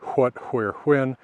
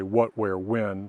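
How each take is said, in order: First: Each word begins with a breathy 'hw' sound. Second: Each word begins with a plain 'w' sound. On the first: This is the older pronunciation. "for what was once" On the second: This is how most speakers say it today. "People now say"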